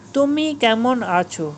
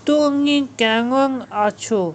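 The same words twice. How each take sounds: First: The m sounds are made with closed lips. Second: The m sounds become ng sounds, lips apart. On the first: "তুমি কেমন আছো কথাটা" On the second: "প ফ ব ভ ময়ের জায়গায় ক খ গ ঘ ঙ"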